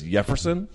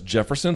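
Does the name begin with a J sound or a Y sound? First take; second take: Y sound; J sound. First: The name begins with a Y sound. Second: The name begins with a J sound. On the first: "it says Jefferson" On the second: "but it's Jefferson"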